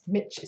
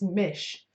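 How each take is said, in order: First: The syllable ends with a 'ch' sound. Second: The syllable ends with an 'sh' sound. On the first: The speaker calls it wrong. "So it's not Mitch" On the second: The speaker calls it right. "It's Mish"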